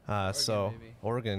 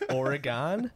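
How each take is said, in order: First: The name is said the way locals say it. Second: The name is said the way outsiders say it. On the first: The speaker calls it right. "I've had to learn to say it that way" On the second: The speaker calls it wrong. "I used to say Oregon, and I got scolded hardcore"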